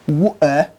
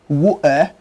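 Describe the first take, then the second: First: It is said in a nonstandard British accent. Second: The same.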